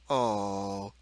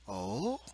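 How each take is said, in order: First: The oh sounds displeased. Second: The oh sounds questioning. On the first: "or displeasure" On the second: "or questioning"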